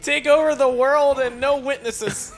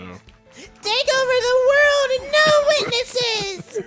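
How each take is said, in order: First: It is said in a normal voice. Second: It is said in a child's voice.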